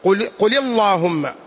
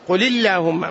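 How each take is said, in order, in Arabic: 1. تُنطق اللام في «اللهم» مفخمة. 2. تُنطق اللام في «اللهم» مرققة. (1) "ما تقول" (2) "فإن اللام ترقق"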